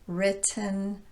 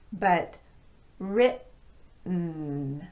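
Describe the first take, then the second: First: The T is a clear T. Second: The T is a glottal stop. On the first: "a normal T sound in place of the glottal stop" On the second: "use this glottal stop in place of the T"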